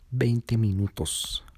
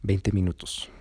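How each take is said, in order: First: "Veinte minutos" slowed with VEINTE leaned on; stressed in disbelief. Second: Said in the usual way. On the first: Real, not acted. Narrator marveling at the boyfriend's drive, "Veinte minutos" slow and stressed. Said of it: "llegar en veinte minutos".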